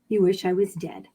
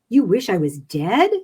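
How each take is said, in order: First: The voice stays flat at the end. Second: The voice rises at the end.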